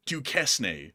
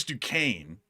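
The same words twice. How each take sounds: First: Duquesne said "doo-KESS-nay"; spelling pronunciation. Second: Duquesne said "doo-KANE"; correct pronunciation. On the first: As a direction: sound out the s in Duquesne, ending in "nay". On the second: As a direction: silent s in Duquesne, two syllables. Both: Shown as a demonstration. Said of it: "That is Duquesne".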